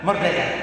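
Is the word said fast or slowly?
fast. It is said fast, in a Manggarai accent.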